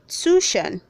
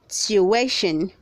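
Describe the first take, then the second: First: The word is said with two syllables. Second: The word is said with three syllables. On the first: The speaker calls it wrong. "don't say tuition. not two" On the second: The speaker calls it right. "Say tuition, The word has three syllables"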